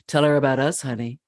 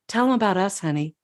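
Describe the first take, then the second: First: It is said in a husky voice. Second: It is said in a plain voice.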